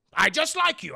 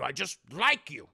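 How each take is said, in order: First: "I just like you" burst out high and loud; blurted affection. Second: "I just like you" back at usual pitch, firmly; settled affection. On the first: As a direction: blurt "I just like you" far above your usual pitch. Affection bursts out of old man. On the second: Repeats it, settling down. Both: Acted.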